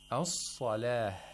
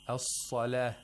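First: The final h sound is held longer. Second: The final h sound is cut short. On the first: The speaker calls it right. "we should hear the ha" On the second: The speaker calls it wrong. "we didn't hear the ha with the necessary amount of timing"

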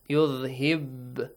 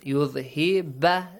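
First: The final b ends in a short echoing bounce. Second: The final b carries an added vowel sound. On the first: The speaker calls it right. "let it jump. Yudhib. This way, let it jump" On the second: The speaker calls it wrong. "Don't read it with an a sound. Yudhib, no"

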